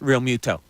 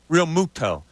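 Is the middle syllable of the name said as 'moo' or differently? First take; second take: differently; moo. First: The middle syllable is not said as 'moo'. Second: The middle syllable is said as 'moo'. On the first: The speaker calls it right. "needs to have his name s- pronounced Real Muto" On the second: The speaker calls it wrong. "They're doing the moo"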